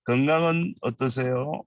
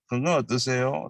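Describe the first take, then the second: First: Said in the usual way. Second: 건강 어떠세요 without 은, 건강 run straight into 어떠세요; drop the particle. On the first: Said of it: "Sometimes you don't need to say 은". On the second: Shown as a demonstration. Teacher modelling 건강 어떠세요 for students, dropping 은. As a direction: say 건강 어떠세요 quickly, leaving out 은. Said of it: "you don't need to say 은".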